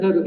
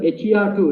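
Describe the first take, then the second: First: "her two" said as the word "her", then "two"; HER2 said as a word. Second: "H E R two" said letter by letter; HER2 spelled out. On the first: Speaker tells host how they pronounce the marker, "her two" as one name. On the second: Speaker echoes host's question, "H E R two" spelled letter by letter. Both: Shown as a demonstration. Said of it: "I pronounce it as her two".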